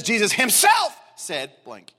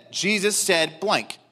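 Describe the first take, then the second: First: "himself" punched hard, slow phrase; stress on himself. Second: Said in the usual way. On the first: Shown as a demonstration. Preacher showing emphasis on Christ's person, stress on "himself". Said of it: "meaning that there's an emphasis on the person". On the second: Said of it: "it could have said".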